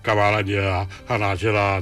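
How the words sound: The voice resonates low in the chest.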